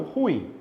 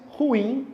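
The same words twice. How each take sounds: First: "ruim" run together as RUim, stress on the u; wrong pronunciation. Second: "ruim" as two syllables, ru-IM, stress on the end; careful correct "ruim", the i carrying the stress; two-syllable pronunciation. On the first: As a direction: say "ruim" with the stress pulled forward onto "ru". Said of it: "e não ruim". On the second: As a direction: say "ruim" with the stress landing on the final "im". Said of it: "fala-se ruim e não ruim". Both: Shown as a demonstration.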